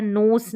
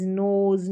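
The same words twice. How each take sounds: First: "नोस" ending in voiceless s; wrong reading with S. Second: "नोज" with a voiced z at the end. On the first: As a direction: end "नोस" on s instead of z. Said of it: "नोस नहीं पढ़ते हैं". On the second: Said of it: "एस ई का उच्चारण ज". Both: Shown as a demonstration.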